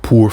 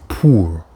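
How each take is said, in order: First: The vowel sounds like English 'pour'. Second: The vowel is the French 'ou' sound. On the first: The speaker calls it wrong. "it's like the English word pour" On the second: The speaker calls it right. "but you want to say pour, ou"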